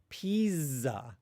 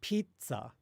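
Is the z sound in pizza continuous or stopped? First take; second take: continuous; stopped. First: The z is a continuous buzz without any stop. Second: The z begins with a brief stop of air. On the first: The speaker calls it wrong. "We don't say pizza" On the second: The speaker calls it right. "We say pizza, right? ... it's an affricate ... you actually stop the outgoing air for a second"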